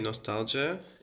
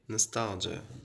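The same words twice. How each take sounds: First: A British accent, with a full first vowel. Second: An American accent, with a short first vowel. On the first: "British people say nostalgia" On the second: "American people say nostalgia. they don't pronounce O, they just pronounce it shortly"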